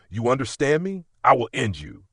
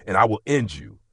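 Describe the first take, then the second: First: "I will end you" with "I" hit hard and loud; stress on I. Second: Cold threat. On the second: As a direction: threaten him, mean every word. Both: Acted. Father threatening daughter's abuser.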